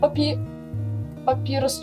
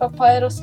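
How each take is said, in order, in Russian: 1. Второй слог произносится как 'pi'. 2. Второй слог произносится как 'pai'. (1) "чуть не сказал" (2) "надо правильно говорить"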